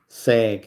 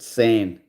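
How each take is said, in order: First: The syllable ends in a hard g sound. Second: The syllable ends in a nasal n sound. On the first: It is read the way it is spelt. "it's spelt like they say, sag" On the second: It is said the way others actually pronounce it. "Yet they pronounce it san"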